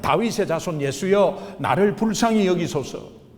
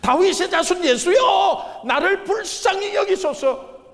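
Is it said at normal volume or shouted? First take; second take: normal; shouted. First: It is said at a normal volume. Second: It is shouted with full force.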